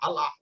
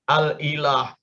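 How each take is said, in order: First: The middle glottal stop and 'i' are dropped. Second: The middle glottal stop and 'i' are pronounced.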